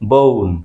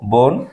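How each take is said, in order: First: The vowel glides from o toward u. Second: The vowel is a plain, steady o. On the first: The speaker calls it right. "Native স্পিকাররা উচ্চারণ করবে ও এর মতো বউন" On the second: The speaker calls it wrong. "আমরা বলি বোন, এখানে ও ভাওয়ালের উচ্চারণ ও"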